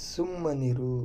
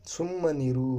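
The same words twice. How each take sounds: The two takes are said the same way.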